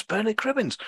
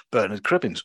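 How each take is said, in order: First: Bernard Cribbins said much higher in delight; excited. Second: Said in the usual way. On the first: Real, not acted. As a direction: say Bernard Cribbins like spotting a hero. Amazed at the cast list.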